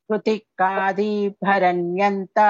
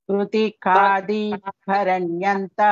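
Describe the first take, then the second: Both takes have the same delivery.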